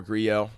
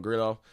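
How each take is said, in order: First: Grillo with the double L as a Y; Spanish pronunciation. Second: Grillo said with an audible L; L pronunciation. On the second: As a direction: say Grillo as GRIL-oh, sounding the double L as L. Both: Shown as a demonstration. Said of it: "I've heard it pronounced both ways".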